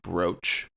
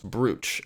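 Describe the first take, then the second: First: The vowel is an oh sound, like coach. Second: The vowel is an oo sound, like smooch. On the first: This is the original pronunciation from an older spelling. "Jeff is using the original pronunciation" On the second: This pronunciation follows the modern spelling. "this would be pronounced brooch, and I have rarely, if ever, said this word out loud before"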